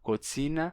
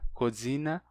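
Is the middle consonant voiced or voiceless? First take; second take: voiceless; voiced. First: The middle consonant is a voiceless ts. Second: The middle consonant is a voiced dz. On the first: "o tse está entre vogais" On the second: "termina pegando a sonorização das vogais"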